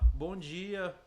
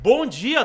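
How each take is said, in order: First: It is said flatly, with little energy. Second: It is said warmly, with lively energy. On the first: The speaker calls it wrong. "Não" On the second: The speaker calls it right. "A energia da voz, a energia do tom de voz"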